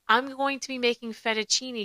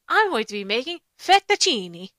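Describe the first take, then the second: First: It is said in a plain, unaccented way. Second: It is said with an exaggerated Italian accent. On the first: "instead of being like" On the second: "she says everything with an Italian accent"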